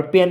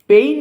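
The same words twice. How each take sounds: First: পেন said short, like English "pen"; পেন with a plain short e; পেন meaning pen. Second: পেইন said with an ei glide, like English "pain"; পেইন stretched, not পেন; পেইন meaning pain; pain with long ei. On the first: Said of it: "এটা কিন্তু পেন হবে না". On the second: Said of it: "এখানে কিন্তু পেইন হবে". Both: Shown as a demonstration.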